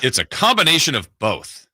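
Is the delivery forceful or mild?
forceful. It is said in a strong, forceful way. The speaker calls it wrong. "too strong?"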